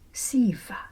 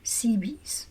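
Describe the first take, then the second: First: The name is said with Greek pronunciation. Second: The name is said with English pronunciation. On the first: "In Greek, it pronounced Siva" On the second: "I will pronounce it Cebes"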